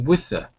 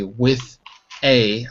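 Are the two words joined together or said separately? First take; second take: joined; separate. First: The words run together with a weak vowel. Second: The words are separated with full forms. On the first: The speaker calls it right. "I say with a" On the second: The speaker calls it wrong. "I don't say with a"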